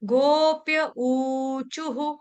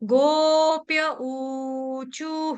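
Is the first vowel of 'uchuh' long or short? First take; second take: long; long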